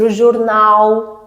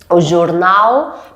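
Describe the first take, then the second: First: The final L sound is dropped. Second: The final L sound is pronounced. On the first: The speaker calls it wrong. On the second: The speaker calls it right.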